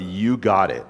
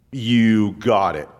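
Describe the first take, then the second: First: Said in the usual way. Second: Slow and steady, each word weighed; slow assured God voice. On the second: Acted. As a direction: grant the prayer slowly, with calm certainty. God answering a prayer.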